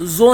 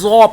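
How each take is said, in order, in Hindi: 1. व्यंजन पतला बोला गया है, भारीपन के बिना। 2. व्यंजन मोटा और भारी बोला गया है। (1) "ज़ो नहीं पढ़ेंगे" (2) "बल्कि ज़ो पढ़ेंगे"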